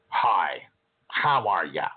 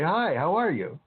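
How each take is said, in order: First: The greeting is said in a snotty tone. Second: The greeting is said in a less snotty tone. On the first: "the first example was kind of snotty" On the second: "the second example was maybe a little less snotty"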